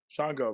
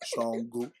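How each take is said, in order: First: The name is said in a British accent. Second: The name is said in a Yoruba accent. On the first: "I could still use my British accent though" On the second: "Yoruba accent"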